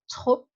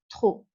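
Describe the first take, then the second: First: The final P is pronounced. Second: The final P is not pronounced. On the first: The speaker calls it wrong. "A common mistake is to say trop and say the P" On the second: The speaker calls it right. "so pronounce it trop. Don't say the P"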